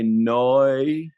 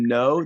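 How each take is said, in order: First: It is said in an Australian-style accent. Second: It is said in a plain accent. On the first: "that accent over there, they say noi" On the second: "instead of saying no"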